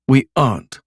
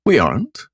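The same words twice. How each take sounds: First: Firm falling answer; flat denial. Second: Mock surprise, rising question; faux surprise. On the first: Acted. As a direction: shut it down firmly. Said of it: "she said". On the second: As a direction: feign surprise lightly. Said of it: "with faux surprise".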